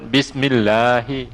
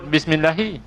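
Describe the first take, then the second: First: The vowel in 'lah' is held for two beats. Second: The vowel in 'lah' is cut short. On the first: The speaker calls it right. "kena sebut bismillahi" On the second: The speaker calls it wrong. "Tak boleh sebut bismillahi"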